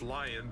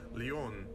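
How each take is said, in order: First: It is said with an English pronunciation. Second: It is said with a softer French pronunciation. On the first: "lion is just lion" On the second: "it's pronounced with a softer pronunciation"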